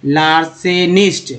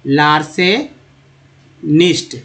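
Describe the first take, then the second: First: लार्सेनिस्ट said slowly, each syllable clear; slow teacher model; slow demo. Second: लार्सेनिस्ट stretched very slowly, every sound held; extra slow model; very slow demo. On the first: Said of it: "pronunciation demo". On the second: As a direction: drag out लार्सेनिस्ट for the class. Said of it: "इसको याद रखिए". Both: Shown as a demonstration.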